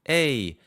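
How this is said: The vowel is said with a clean voice.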